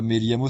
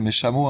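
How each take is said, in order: First: The double-L sounds like a 'y' sound. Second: The double-L sounds like a 'sh' sound. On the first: "c'est pas mes liamos" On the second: "c'est mes chameaux"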